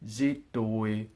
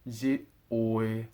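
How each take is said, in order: First: The two words run together as one. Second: The two words are said apart. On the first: The speaker calls it right. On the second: The speaker calls it wrong.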